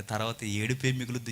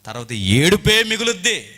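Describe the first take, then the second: First: Said in the usual way. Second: ఏడుపే pushed higher and louder; forceful stress on ఏడుపే; emphatic warning. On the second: Real, not acted. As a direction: raise the voice hard on ఏడుపే.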